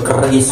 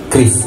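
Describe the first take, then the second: First: An 'e' vowel comes between k and r. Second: No vowel comes between k and r. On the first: The speaker calls it wrong. "Atau yang lebih Jawa itu keris" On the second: The speaker calls it right. "yang benar adalah kris"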